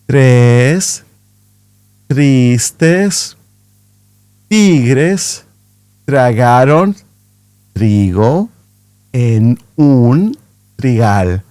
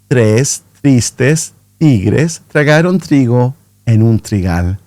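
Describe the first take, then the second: First: The sentence is spoken at a slow pace. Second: The sentence is spoken at a medium pace. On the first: "Again, but slower" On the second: "natural speed, so not too fast, not too slow"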